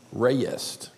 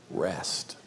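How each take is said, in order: First: Soft "ray-est" in two syllables; gentle Southern "ray-yest"; two-syllable rest. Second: Said in the usual way. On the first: Shown as a demonstration. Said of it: "say it with two syllables and really slowly".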